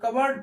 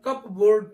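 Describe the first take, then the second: First: No P sound is heard in the middle. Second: A P sound is heard in the middle. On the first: The speaker calls it right. "इसको हम कबर्ड पढ़ते हैं। यहाँ पे पी silent हो जाता है" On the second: The speaker calls it wrong. "लेकिन कई बार हम कप बोर्ड पढ़ लेते हैं। कप बोर्ड नहीं"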